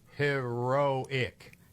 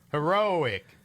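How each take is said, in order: First: The word is said slowly and carefully. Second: The word is said quickly with a hitch. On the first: "if I can slow it down, I can usually get it" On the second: "Now just say it fast"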